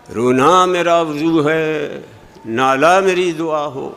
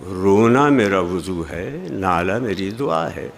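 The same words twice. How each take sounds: First: Slow sing-song reading on a held pitch; imitating stilted pupil recitation; schoolroom recitation. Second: Low, unforced recitation; lower, gently settling lines; natural verse reading. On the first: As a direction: chant the verse like taught schoolchildren, endings drawn out. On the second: Shown as a demonstration. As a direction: say the verse with feeling, not chanting. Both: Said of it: "कि शेर इस तरह पढ़ो".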